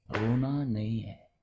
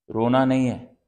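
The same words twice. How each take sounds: First: Slow, drawn-out restraint; controlled warning. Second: Loud, firm order; stern command. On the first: Parent telling Adi not to cry, slow and controlled. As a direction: stretch each word in a measured warning. Parent repeats order more softly. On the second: Parent forbidding Adi to cry, loud and stern. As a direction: order the child firmly to stop. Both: Acted.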